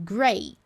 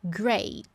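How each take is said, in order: The two takes are said the same way.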